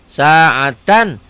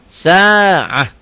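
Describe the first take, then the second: First: The word ends with a t and n sound. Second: The word ends with a soft h sound. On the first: The reader keeps going without stopping. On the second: The reader stops on this word.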